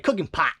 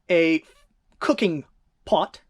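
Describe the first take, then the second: First: It is said in a nasal Midwestern accent. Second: It is said in a standard accent.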